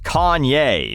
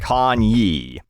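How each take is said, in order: First: The name ends with a 'yay' sound. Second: The name ends with a 'yee' sound. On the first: The speaker calls it right. "his name is [name]" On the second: The speaker calls it wrong. "not Kanye"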